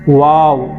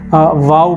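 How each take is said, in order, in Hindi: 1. इसकी शुरुआत w की आवाज़ से होती है, होंठ गोल होते हैं। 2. इसकी शुरुआत v की आवाज़ से होती है, होंठ गोल नहीं होते। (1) "वाव ये सही तरीक़ा है कि होंठ हमारे गोल होना है।" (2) "बच्चे आम तौर से वाव बोल के पढ़ते हैं"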